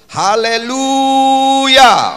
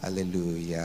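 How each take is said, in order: First: It is said loudly and strongly. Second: It is said weakly and limply.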